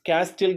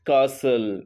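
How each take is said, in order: First: The t sound is pronounced in the middle. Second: The t sound is left out entirely. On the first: The speaker calls it wrong. "క్యాస్టిల్ కాదు అది" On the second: The speaker calls it right. "టీ అనేది మనకి ఇక్కడ ఏమైంది? Silent అయింది"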